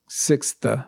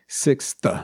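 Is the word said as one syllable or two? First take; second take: two; two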